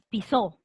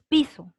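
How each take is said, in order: First: The stress is on the last syllable. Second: The stress is on the first syllable. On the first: Someone stepped on something. The speaker calls it wrong. "no dices pisó" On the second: The floor that is walked on. The speaker calls it right. "tú dices piso ... piso es una grave"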